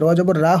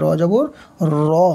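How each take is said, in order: First: The r is light, lips unrounded. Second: The r is heavy, lips rounded. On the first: The speaker calls it wrong. "র জবর রা হয় না" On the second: The speaker calls it right. "র জবর র হবে, মুখটা গোল হবে"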